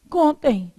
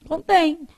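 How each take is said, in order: First: Contém said as CON-tem, from the verb contar; stress on the first syllable. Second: Contém said as con-TÉM, with the acute accent; stress on the last syllable. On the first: Teacher showing what is written, contém stressed on CON. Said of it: "Isso aqui é contém do verbo contar". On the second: Teacher showing the accented form, contém stressed on TÉM. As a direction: land the weight on TÉM in contém. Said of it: "como é que ia ser?". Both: Shown as a demonstration.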